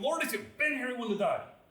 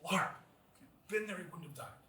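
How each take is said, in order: First: It is said in a blunt tone. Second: It is said in a gentle tone.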